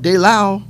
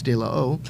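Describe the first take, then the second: First: The name's ending is run together into one syllable. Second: The name's ending is split into two separate syllables. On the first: The speaker calls it wrong. "we're pronouncing it wrong" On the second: The speaker calls it right. "It's De La O"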